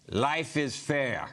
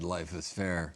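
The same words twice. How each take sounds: First: It is said in a put-on Russian accent. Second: It is said in the speaker's ordinary accent.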